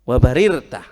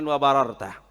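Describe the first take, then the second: First: The vowel after the first r is 'i'. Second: The vowel after the first r is 'a'. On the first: The speaker calls it right. "wabarirta yang benar" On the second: The speaker calls it wrong. "bukan wa bararta"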